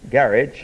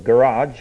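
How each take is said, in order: First: The word garage has a British pronunciation. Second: The word garage has an American pronunciation.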